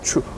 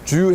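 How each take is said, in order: First: The syllable starts with a voiceless 'ch'. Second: The syllable starts with a voiced 'j'. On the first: It marks the speaker as Korean. The speaker calls it wrong. "추 이런 식으로 발음을 했다는 거죠" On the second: It sounds like a native Japanese speaker. The speaker calls it right. "원래 주 해야 되는데"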